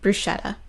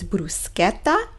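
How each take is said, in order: First: The word has an English-style pronunciation. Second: The word has an Italian-style pronunciation. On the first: The speaker calls it wrong. "not bruschetta" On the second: The speaker calls it right. "it is bruschetta"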